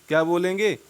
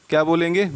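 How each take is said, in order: Both takes have the same delivery.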